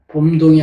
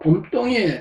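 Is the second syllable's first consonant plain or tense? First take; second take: plain; tense. First: The second syllable starts with a plain d sound. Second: The second syllable starts with a tense tt sound. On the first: The speaker calls it wrong. "봄동이 아니고" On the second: The speaker calls it right. "이 똥이라는 단어가"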